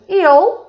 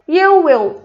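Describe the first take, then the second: First: The two words merge into one short syllable. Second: Both words are said separately and in full.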